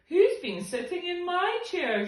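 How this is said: The voice sounds medium-sized and moderate. The medium-sized character is speaking. "she said in her middle-sized voice"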